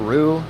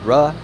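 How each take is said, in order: First: The vowel is a long 'oo' sound. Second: The vowel is a short 'uh' sound. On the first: "R O O for Ru" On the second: "R U H for Ra"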